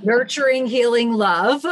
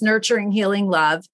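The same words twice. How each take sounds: First: Grand title reveal. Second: Said in the usual way. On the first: Shown as a demonstration. Guest unveils her book title to the host, proud reveal. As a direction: announce the title like a reveal after a drum roll, rising at the end. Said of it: "drum roll please". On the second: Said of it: "And of course".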